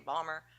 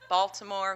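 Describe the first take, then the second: First: The name is shortened, Baltimore local style. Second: The name is said in full, three syllables.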